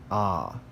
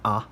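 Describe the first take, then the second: First: The vowel is drawn out and held longer. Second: The vowel is short and quickly cut off. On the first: "It's long because it's held longer" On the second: "is pronounced like a short A"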